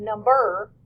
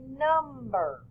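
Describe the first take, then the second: First: "number" with the stress on the second syllable, num-BER; wrong stress. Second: "number" as NUM-ber, first syllable harder and longer; first-syllable stress. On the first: Teacher showing how not to say number, stress wrongly on BER. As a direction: hit the end of "number" louder, as num-BER. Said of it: "We stress that first syllable harder". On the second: Teacher showing how we say number, stressed on a long NUM. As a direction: lengthen and lean on NUM in "number". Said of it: "We stress that first syllable harder, longer". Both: Shown as a demonstration.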